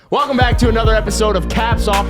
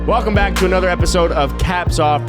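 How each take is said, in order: First: It is said loudly, with high energy. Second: It is said flatly, with low energy. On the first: The speaker calls it right. "How's that for fucking energy" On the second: The speaker calls it wrong. "You just sounded so sad to be here"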